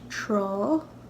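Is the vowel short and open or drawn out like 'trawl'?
drawn out. The word ends in a drawn-out 'aw' vowel. This is how it is said in Connacht. "in Connacht, this will be pronounced trawl"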